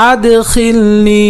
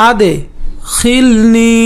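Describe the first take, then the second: First: "আদখিলনি" chanted in one piece, last vowel held; chanted, intone "আদখিলনি" without a break; connected chanted demo. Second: "আদখিলনি" split by a pause after আদ; broken-up pronunciation demo. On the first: (chanted, "আদখিলনি" একটানা সুর করে) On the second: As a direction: chant "আদ", pause, then long "খিলনি". ("আদখিলনি" ভেঙে ভেঙে উচ্চারণ) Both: Shown as a demonstration. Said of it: "উচ্চারণ করে পড়বেন".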